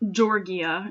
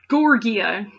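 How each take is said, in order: First: The name begins with a soft 'George' sound. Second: The name begins with a hard 'gore' sound. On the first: "Georgia, it says" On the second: "I'm going to pronounce it Gorgia because it reminds me of Gorgons"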